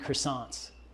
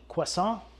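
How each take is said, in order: First: The word is said with an American accent. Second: The word is said with a French accent. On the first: "I'm just gonna roll American style" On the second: "Should I say it French?"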